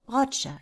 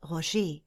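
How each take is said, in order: First: The stress is on the short first syllable. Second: The stress is on the long final syllable. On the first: "nur eine kurze Betonung auf der ersten Silbe" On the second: "zusätzlich auch noch das lange E am Wortende zu betonen"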